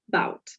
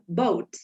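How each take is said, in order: First: The vowel sounds closer to an 'ow' sound. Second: The vowel is a North American 'oh' sound. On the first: "is going to be pronounced bout" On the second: "in American English or Canadian English"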